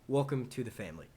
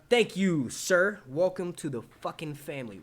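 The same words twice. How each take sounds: First: Calmer, settled greeting; toned-down welcome. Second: Loud, raised thank-you into a big welcome; hearty welcome. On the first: Streamer correcting his welcome to a subscriber, toned down. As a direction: rein it in and welcome politely. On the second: Streamer thanking a new subscriber, hearty. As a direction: greet with over-the-top gusto. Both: Acted.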